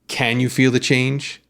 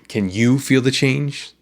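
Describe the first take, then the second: First: The stress is on can. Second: The stress is on you.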